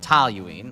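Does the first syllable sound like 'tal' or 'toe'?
tal. The first syllable has an A sound, like 'tal'. "because I'm from Chicago, I go toluene. I go tal"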